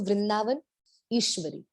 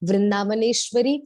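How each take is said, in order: First: The name is broken into two separate parts. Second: The name is said as one joined word. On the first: "break करेंगे तो" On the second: "word को बोला जाता है"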